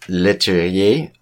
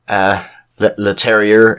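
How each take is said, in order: First: The name is said with a French pronunciation. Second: The name is said with an English pronunciation. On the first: "That's how you pronounce it" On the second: "if we're going to be English about it"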